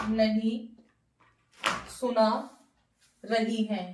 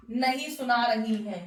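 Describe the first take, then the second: First: नहीं, then सुना, then रही है, each set apart by a long pause; teacher spelling out नहीं सुना रही है word by word, with pauses; word by word dictation. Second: Said in the usual way. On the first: Shown as a demonstration. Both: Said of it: "तो negative sentence देखिए".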